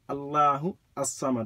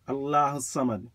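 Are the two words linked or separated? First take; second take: separated; linked. First: The words are apart, with an extra vowel between them. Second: The words run together with no vowel between them. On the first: "But if you separate them" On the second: "If you join them, the alif is silent"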